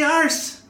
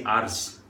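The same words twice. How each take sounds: First: Ours sung out high in the head; ours placed up high. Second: Ours dropped low in the chest; ours placed low. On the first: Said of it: "So up here". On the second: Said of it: "then down here I say ours". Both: Shown as a demonstration.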